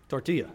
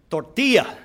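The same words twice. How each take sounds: First: Quieter, lower, unconvincing "Tortilla"; low, soft learner's attempt at "Tortilla"; learner's wrong pronunciation. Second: Careful Spanish-lesson "Tortilla"; teacher's Spanish pronunciation. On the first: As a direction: repeat TORTILLA softly like a poor language student. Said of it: "No, you didn't". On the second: Retold or imitated. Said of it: "We're going to work on pronunciation".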